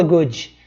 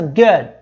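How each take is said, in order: First: "good" said as "goody"; wrong final i. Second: "good" cut short on an unreleased d; silent final d. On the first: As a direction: add an ee after the d of "good". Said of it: "não falo". ("good" com i no final: "gúdi") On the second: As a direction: stop the d of "good" without any vowel after it. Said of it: "termina com uma consoante que não tem som". ("good" com d mudo, sem i no final) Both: Shown as a demonstration.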